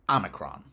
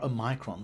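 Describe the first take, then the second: First: It is said the American way. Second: It is said the British way. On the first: The speaker calls it right. "the U S form" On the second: The speaker calls it wrong. "the U K use the bizarre Omicron form"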